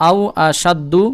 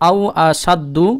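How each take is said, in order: Both takes have the same delivery.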